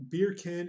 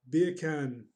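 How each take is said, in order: First: Said in the usual way. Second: Attempted Jamaican accent, punched out. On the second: Shown as a demonstration. Streamer trying out chat's joke, Jamaican accent. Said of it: "in a Jamaican accent".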